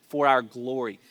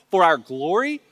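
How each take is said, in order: First: Said in the usual way. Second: Louder, rising awed question; impressed Corinthians. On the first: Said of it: "And he's like". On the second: Acted. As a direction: echo it back in eager amazement. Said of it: "they would be eating that language up".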